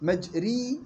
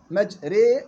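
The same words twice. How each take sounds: First: مجري said with the wrong vowel, as students misread it; wrong pronunciation. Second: مجري said with the fronted, tilted vowel, slow and exact; correct pronunciation. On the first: Teacher showing students the common error, slow deliberate reading. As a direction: demonstrate the mistake in مجري. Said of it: "مجري غلط". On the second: Teacher giving the approved reading, slow careful model. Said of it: "مجري صح". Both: Shown as a demonstration.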